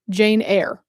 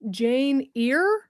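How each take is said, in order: First: Eyre is pronounced to rhyme with air. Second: Eyre is pronounced to rhyme with ear. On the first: The speaker calls it right. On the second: The speaker calls it wrong.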